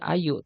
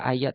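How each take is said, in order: First: The word ends in an u vowel. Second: The word ends in an a vowel. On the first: The speaker calls it right. "Makanya bacanya ayu" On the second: The speaker calls it wrong. "tidak ayat"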